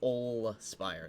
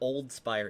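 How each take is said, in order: First: The first word ends without any D sound. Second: The first word ends with a clear D sound. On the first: The speaker calls it right. "There's no D" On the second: The speaker calls it wrong. "It's also not Old Spire"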